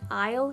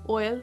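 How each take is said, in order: First: The vowel sounds like the word eye. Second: The vowel sounds like the word oil. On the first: "the word I'll" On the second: "just sound like oil"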